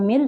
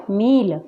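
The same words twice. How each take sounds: First: "मिल" with a short, light i. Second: "मील" with a long, weighted ee. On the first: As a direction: keep the vowel of "मिल" brief. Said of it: "इसके विपरीत होती है". ("मिल" में छोटी इ) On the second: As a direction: stretch the vowel of "मील". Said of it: "ज़्यादा जोर देकर होता है". ("मील" में बड़ी ई, ज़ोर देकर) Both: Shown as a demonstration.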